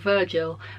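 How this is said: The name is said with an English accent. "as I would read it in my English accent"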